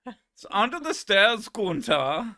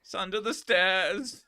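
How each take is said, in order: First: Hammed-up German accent, much higher and louder; bad German accent. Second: Hammed-up German accent, higher; a silly German character line; bad German accent. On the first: Streamer redoing the skit line louder, bad German accent. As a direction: belt the line again in the silly German voice. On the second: Streamer answering his own German skit, hammed-up German accent. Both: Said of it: "His German accent is terrible".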